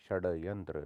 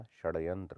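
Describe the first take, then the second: First: षड्यंत्र with flapped ड़ after ष. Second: Said in the usual way. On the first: Shown as a demonstration. Teacher shows the error, षड्यंत्र with flap. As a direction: flick the tongue in षड्यंत्र. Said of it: "नहीं होता". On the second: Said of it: "होता है".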